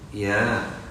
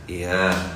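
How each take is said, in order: First: The reply sounds plain and willing. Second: The reply sounds reluctant and grudging. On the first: The request is gladly granted. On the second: The repeated request is starting to annoy.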